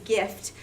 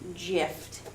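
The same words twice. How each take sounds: First: The word begins with a hard G sound. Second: The word begins with a soft G sound. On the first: The speaker calls it right. "the closest word to GIF is gift" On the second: The speaker calls it wrong. "which obviously we do not pronounce gift"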